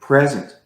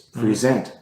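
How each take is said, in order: First: The stress is on the first syllable. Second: The stress is on the second syllable.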